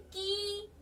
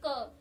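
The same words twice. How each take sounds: First: की drawn out slowly; long slow की. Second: क said short and quick. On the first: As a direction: stretch की out slowly. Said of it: "लेकिन की". (धीरे खींचा हुआ की) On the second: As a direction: snap out क quickly. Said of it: "एकदम बोल दिया". (छोटा झटपट क) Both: Shown as a demonstration.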